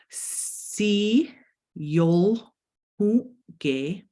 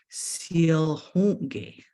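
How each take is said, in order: First: Each syllable is said separately, one by one. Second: The syllables run together in one smooth word. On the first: "if I were to pronounce it sound by sound" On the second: "when we're saying it all together"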